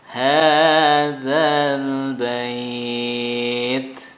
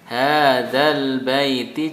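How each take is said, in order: First: The phrase ends in a bare consonant. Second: The phrase ends with a short final vowel. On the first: The reader stops at the end of the verse. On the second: The reader continues without stopping.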